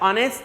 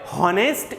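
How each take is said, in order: First: The word begins directly with a vowel. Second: The word begins with an h sound. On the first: The speaker calls it right. "ઓનેસ્ટ બોલીએ છીએ" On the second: The speaker calls it wrong. "હોનેસ્ટ એવું આપણે બોલતા નથી"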